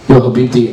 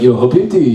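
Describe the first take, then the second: First: It is said in his natural voice. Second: It imitates the bodega guy's voice.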